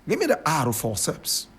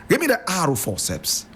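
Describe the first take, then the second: The two takes are said the same way.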